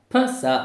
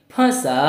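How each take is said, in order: First: फंसा said as "phasa", first vowel purely oral; wrong take of फंसा, with no chandrabindu nasal; without nasalisation. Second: फंसा with the first vowel through nose and mouth, higher pitched; nasalised vowel. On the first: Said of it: "फंसा नहीं". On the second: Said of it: "नाक और मुंह दोनों की सहायता से". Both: Shown as a demonstration.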